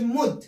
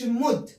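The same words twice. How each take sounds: First: The vowel is short and said quickly. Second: The same.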